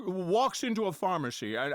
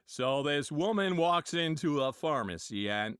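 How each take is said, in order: First: Jimmy Stewart impression. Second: John Wayne impression. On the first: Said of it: "Jimmy Stewart already talking". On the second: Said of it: "John Wayne was".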